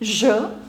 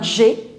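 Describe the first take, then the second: First: The vowel sounds like a short 'uh'. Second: The vowel sounds like 'ay'. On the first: The speaker calls it right. "the pronunciation of the letter E in French is E" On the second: The speaker calls it wrong. "It's not j'ai"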